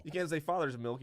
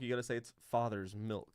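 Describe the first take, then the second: First: Said in the usual way. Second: "father's milk" said lower with a sly lean; knowing delivery. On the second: Shown as a demonstration. Co-host mimicking the proper way to say "father's milk", low and sly.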